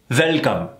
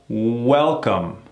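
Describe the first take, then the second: First: It starts with a buzzing V sound. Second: It starts with a rounded W sound. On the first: The speaker calls it wrong. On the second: The speaker calls it right.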